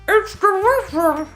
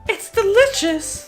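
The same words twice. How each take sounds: First: It is said as if with mouth full. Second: It is said in a clear, normal voice.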